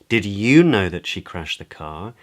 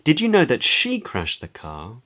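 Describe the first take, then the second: First: The word "you" carries the main stress. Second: The word "she" carries the main stress. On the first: It accusingly asks whether this listener knew. "Questions in a sort of accusatory way as to whether the other person knew" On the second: It asks whether the listener is sure who was responsible. "Questions whether the other person is sure of who is responsible"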